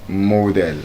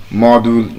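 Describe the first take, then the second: First: "model" slow, long o as in mould; wrong model. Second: "Module" with a short o; correct module. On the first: Teacher shows the class the wrong form. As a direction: show the mistaken "model". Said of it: "not model". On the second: Teacher corrects the class once more. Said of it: "that word is module". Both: Shown as a demonstration.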